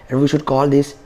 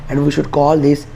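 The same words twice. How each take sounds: The two takes are said the same way.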